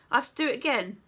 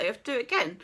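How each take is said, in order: First: "do" lifted and leaned on, rest even; stress on do. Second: "again" carries the weight, falling at the end; flat line peaking on "again"; stress on again. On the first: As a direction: press the word "do" hard. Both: Shown as a demonstration.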